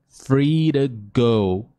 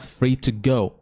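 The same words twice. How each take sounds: First: The t in 'to' is a quick flap. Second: The t in 'to' is a clear t. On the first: "ele vai botar com um flap T, que é o somzinho do nosso R" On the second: "Perfeito também, não tem problema nenhum"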